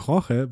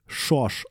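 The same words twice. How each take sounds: First: The name is pronounced as in Spanish. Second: The name is pronounced as in Portuguese. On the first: This is how one would wrongly guess it. The speaker calls it wrong. "weil das im Spanischen so ausgesprochen werden würde" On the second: This is how it is really said. The speaker calls it right. "wird im Portugiesischen literally Jorge ausgesprochen"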